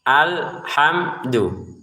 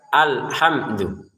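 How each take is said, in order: First: The word is said slowly and drawn out. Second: The word is said somewhat quickly. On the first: "alhamdu itu kalau slow, slow motion ya" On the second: "Kalau agak cepat"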